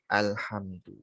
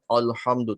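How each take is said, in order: First: The opening vowel is thin, a clear a. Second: The opening vowel is thick, close to o. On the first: The speaker calls it right. "tapi alhamdu" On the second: The speaker calls it wrong. "jangan alhamdu"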